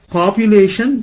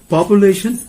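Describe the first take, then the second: First: It is said in a British accent. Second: It is said in an American accent.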